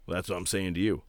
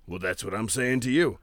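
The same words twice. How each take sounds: First: Character voice, plain take. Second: Character impression. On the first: Retold or imitated. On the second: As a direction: repeat it in his character voice. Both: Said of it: "do his character".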